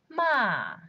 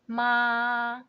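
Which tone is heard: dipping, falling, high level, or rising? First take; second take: falling; high level. First: The pitch falls sharply from high. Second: The pitch stays high and level. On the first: "Fourth tone" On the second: "First one"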